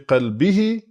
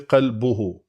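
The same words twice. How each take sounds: First: The vowel before the final syllable is i. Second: The vowel before the final syllable is u. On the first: The noun is in the genitive case. "in the case of مجرور, it's going to be" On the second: The noun is in the nominative case. "in the case of it being مرفوع, its pronunciation is going to be"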